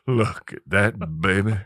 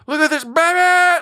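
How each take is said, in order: First: It is said quietly, under the breath. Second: It is said loudly, as a yell.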